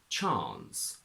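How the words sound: It has a long 'ah' vowel. "a long R in R P"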